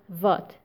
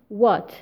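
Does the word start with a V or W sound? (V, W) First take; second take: V; W. First: The word starts with a V sound. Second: The word starts with a W sound. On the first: The speaker calls it wrong. "not what" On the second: The speaker calls it right. "It is what"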